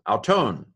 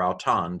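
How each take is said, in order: First: "Auton" ending in a long o, ow-TONE; long-o omicron. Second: "auton" ending in an open ah, ow-TAHN; short-o omicron. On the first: Greek teacher pronouncing omicron long, "Auton" as ow-TONE. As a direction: say "Auton" to rhyme with tone. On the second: Greek teacher pronouncing omicron short, "auton" as ow-TAHN. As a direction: say "auton" with the last vowel as in spa. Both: Shown as a demonstration. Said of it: "depending how you pronounce the omicron".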